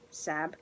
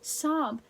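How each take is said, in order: First: The vowel sounds like the one in 'cat'. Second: The vowel sounds like the one in 'hot'. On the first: The speaker calls it wrong. "Sab doesn't sound right either" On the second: The speaker calls it right. "so Sob it is"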